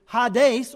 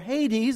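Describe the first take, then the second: First: The word is said with a Greek pronunciation. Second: The word is said with an English pronunciation. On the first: "the Greek word is Hades" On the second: "as we say"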